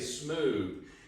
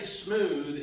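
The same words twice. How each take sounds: First: The word ends with a v sound. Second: The word ends with a th sound. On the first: "Take the T H out, put the V E in" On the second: "I don't say smooth, M S M O O T H"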